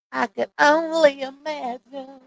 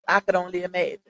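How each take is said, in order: First: High, drawn-out mimicking voice; slow, raised-pitch imitation; Footbeat. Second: Said in the usual way. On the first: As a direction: stretch it out slowly in a higher put-on voice. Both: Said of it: "in my Footbeat voice".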